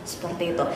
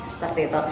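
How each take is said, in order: The two takes are said the same way.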